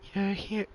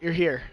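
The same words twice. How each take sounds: First: It is said in a put-on character voice. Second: It is said in his ordinary speaking voice. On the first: "We'll try" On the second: "I'm not even gonna attempt"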